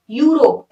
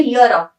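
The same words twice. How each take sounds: First: यूरोप said as "yoo-rop", with a long "yoo"; alternative pronunciation shown. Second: यूरोप said as "yo-rup", opening on a "y" glide; spoken pronunciation shown. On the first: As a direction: open यूरोप on a clear "yoo". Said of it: "ऐसे ना, यू". (यूरोप का उच्चारण, "यू" से शुरू) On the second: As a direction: sound out यूरोप with a short "yo" start. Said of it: "पर ये बोला जाता है". (यूरोप का उच्चारण, "यो" से शुरू) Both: Shown as a demonstration.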